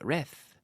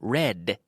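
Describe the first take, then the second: First: The word ends with a soft th sound. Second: The word ends with a crisp d sound. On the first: The speaker calls it wrong. "if my tongue touches the teeth, it will sound like reth" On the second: The speaker calls it right. "But no, red, d, d, d"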